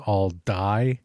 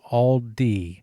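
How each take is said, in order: First: The name ends with a 'die' sound. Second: The name ends with a 'dee' sound. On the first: The speaker calls it wrong. "I thought that the pronunciation was all die" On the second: The speaker calls it right. "and it's all D"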